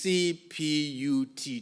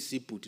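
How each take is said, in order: First: Each letter is said slowly and separately. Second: The letters are rushed and run together. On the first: The speaker calls it right. "Take your time" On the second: The speaker calls it wrong. "Don't take shortcut and say"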